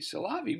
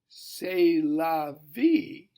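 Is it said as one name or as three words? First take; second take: one name; three words. First: It is run together as one name. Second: It is split into three separate words. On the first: It is a meaningless name. "if you say it that way, Salavi means nothing" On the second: It means that's life. "But if you say it, c'est la vie"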